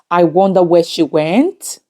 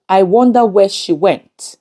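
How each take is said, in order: First: "went" lifted at the end like a question; questioning rise. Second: Said in the usual way. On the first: Shown as a demonstration. Teacher showing the wrong question version, rising on "went". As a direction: let "went" rise as if asking. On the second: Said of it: "no question mark is used".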